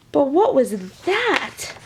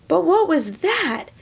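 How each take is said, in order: First: Said in the usual way. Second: But what was that? asked higher, wondering; curious wonder. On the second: Shown as a demonstration. Reader rereads the line with wonder. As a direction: lift it with curiosity. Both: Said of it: "Oops, sorry".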